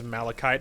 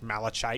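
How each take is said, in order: First: The middle consonant is a k sound. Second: The middle consonant is a ch sound. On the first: The speaker calls it right. "I'm assuming it's k" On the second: The speaker calls it wrong. "malachite sounds stupid"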